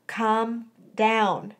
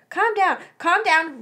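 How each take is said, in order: First: Calming. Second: High, quick "calm down"; flustered repetition. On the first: Friend calms her ranting. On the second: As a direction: echo the order, agitated and pitched up. Flustered girl repeats the order. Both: A narrator's reading.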